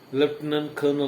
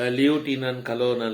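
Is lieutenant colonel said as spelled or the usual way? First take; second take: usual; as spelled. First: It is said with its usual spoken pronunciation. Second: It is said following the spelling letter by letter. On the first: The speaker calls it right. "But you are pronouncing what?" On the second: The speaker calls it wrong. "spelling may be driving you, I mean directing you to pronounce"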